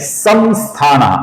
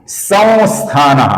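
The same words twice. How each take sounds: First: The nasal is said as a clear m sound. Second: The nasal is a very light nasalized vowel. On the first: The speaker calls it wrong. "अपूर्ण म" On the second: The speaker calls it right. "अनुस्वार का अपूर्ण वो ऐसा उच्चारण करते हैं जो बहुत ही हल्का उच्चारण"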